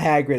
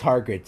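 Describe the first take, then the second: First: "Hagrid" with short a, as in hag; usual name. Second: "Hagrid" said as HAR-grid; misspelled name. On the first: Reader correcting the character's name, "Hagrid" said the usual HAG-rid way. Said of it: "it's Hagrid". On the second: Reader correcting to the fanfic's spelling, "Hagrid" as HAR-grid. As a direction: put an r in "Hagrid": Hargrid. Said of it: "It's not Hagrid". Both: Shown as a demonstration.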